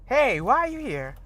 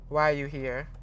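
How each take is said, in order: First: It sounds friendly and light. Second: It sounds rude and accusing.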